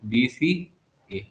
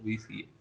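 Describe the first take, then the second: First: BCA stretched very slowly, rising at the end; drawn out slowly. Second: Said in the usual way. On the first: Shown as a demonstration. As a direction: draw out BCA slowly for emphasis.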